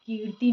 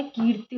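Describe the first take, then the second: First: "कीर्ति" ending in long "tee"; wrong long final i. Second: "कीर्ति" ending in short "ti"; correct short final i. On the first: Teacher rejects the mistake, long final i in "कीर्ति". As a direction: stretch the end of "कीर्ति". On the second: Teacher gives the correction, short final i in "कीर्ति". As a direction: keep ति quick in "कीर्ति". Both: Shown as a demonstration. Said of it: "छोटी की मात्रा आती है".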